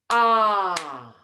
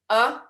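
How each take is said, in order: First: The vowel is held about twice as long. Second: The vowel is held only briefly. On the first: "the long vowel is twice as long" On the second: "The short vowel is a"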